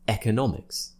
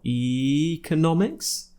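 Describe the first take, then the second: First: The first vowel is a short 'eh' sound. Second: The first vowel is a long 'ee' sound. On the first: "E, just like in Elliot" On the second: "E, tongue high in the mouth and a big smile"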